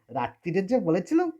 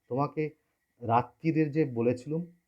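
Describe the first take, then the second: First: It mockingly imitates the girl's voice. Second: It is said plainly in the girl's voice.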